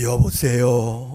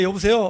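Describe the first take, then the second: First: It is said in a grave, authoritative voice. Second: It is said casually, with no authority.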